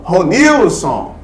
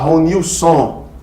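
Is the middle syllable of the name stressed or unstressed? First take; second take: stressed; unstressed. First: The stress is on the middle syllable. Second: The stress is not on the middle syllable. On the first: The speaker calls it right. "Eu falo Ronilson" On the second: The speaker calls it wrong. "eu não posso falar Ronilson"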